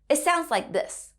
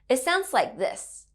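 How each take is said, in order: Both takes have the same delivery.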